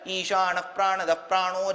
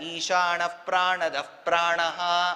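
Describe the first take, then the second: First: The last word ends with an 'o' sound. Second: The last word ends with an 'aha' sound. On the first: "ஓ ஓ ஓன்னு போடுவா" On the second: "அஹா தான் போட்டிருப்பேன்"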